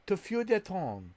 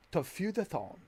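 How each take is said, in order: First: "To feu de ton" said high with a French lilt, stress on "de"; French attempt. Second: "To feel the tone" said as plain English words, high start, falling on "the"; anglicized French. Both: Shown as a demonstration. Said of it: "French is hard".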